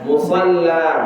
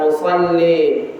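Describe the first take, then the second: First: The final vowel is a full open a. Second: The final vowel leans toward e. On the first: "Kalau tafkhim itu kan"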